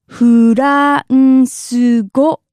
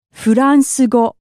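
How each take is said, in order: First: "France go" as slow Japanese "fu-ra-n-su go"; syllable by syllable. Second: Said in the usual way. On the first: Shown as a demonstration. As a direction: draw out each syllable of "France go", louder. Teacher stretches word by syllables.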